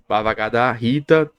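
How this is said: The vowels are fully pronounced, American-style. "como é americano, Bhagavad Gita também tá certo"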